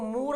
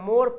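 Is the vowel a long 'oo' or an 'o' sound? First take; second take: oo; o. First: The vowel is a long oo sound. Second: The vowel is an o sound. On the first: The speaker calls it wrong. "हम इसको मूर नहीं पढ़ रहे हैं" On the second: The speaker calls it right. "मोर पढ़ रहे हैं"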